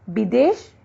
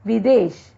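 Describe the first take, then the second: First: विदेश said with b, bidesh; विदेश, b in place of v; wrong b sound. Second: विदेश with a clear v, videsh; correct v sound. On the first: Teacher showing the b for v error. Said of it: "गलत है". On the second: Teacher giving the correct v form. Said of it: "ब, व की अशुद्धियां". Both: Shown as a demonstration.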